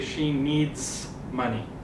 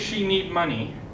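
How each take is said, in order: First: The final s sound of needs is pronounced. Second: The final s sound of needs is dropped. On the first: The speaker calls it right. "make sure you say she needs money" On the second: The speaker calls it wrong. "don't say she need money"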